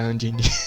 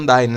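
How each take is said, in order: First: The name is pronounced the Portuguese way. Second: The name is pronounced the English way. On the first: "às vezes eu falo em português do jeito que é Undine" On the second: "o certo é Undyne, né, que vocês falam"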